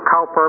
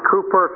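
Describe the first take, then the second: First: The first vowel sounds like 'cow'. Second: The first vowel sounds like 'coo'. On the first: "some pronounce it Cowper" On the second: "some people pronounce it Cooper"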